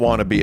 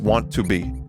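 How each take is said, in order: First: It is reduced to a blended 'wanna'. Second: Each word is said fully and separately. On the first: The speaker calls it wrong. "Not wanna be" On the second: The speaker calls it right. "I say it proper like an English major"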